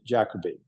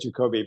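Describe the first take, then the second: First: The name has an English pronunciation. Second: The name has a non-English pronunciation. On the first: This is how many people in England say it. "a lot of people in England say Jacoby" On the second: This is how the name's owner says it. "I say Jacoby"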